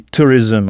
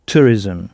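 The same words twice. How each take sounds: First: Tourism said the English way beside French tourisme. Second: Tourism stressed, ending ism as its own syllable; English tourism. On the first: Teacher sets French tourisme against English tourism. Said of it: "si tourisme se dit tourism". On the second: Teacher contrasts spelling and sound of tourism. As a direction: show how tourism sounds, slow and clear. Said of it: "mais se prononce tourism". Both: Shown as a demonstration.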